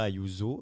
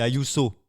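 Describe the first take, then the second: First: The name is pronounced the French way. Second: The name is pronounced the Spanish way. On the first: The speaker calls it wrong. "ce n'est pas Ayuso" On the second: The speaker calls it right. "on va donner une petite leçon d'espagnol. C'est Ayuso"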